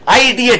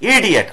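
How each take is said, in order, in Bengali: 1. শব্দটি একটি 'eye' ধ্বনি দিয়ে শুরু হয়। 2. শব্দটি একটি ছোট 'ih' ধ্বনি দিয়ে শুরু হয়। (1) "আইডিয়েট বলি না কিন্তু" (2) "হি ইজ অ্যান ইডিয়েট"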